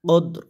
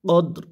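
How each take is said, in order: Both takes have the same delivery.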